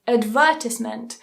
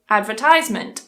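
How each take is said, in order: First: It is said with a British pronunciation. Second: It is said with an American pronunciation. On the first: "I don't say" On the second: "I would say"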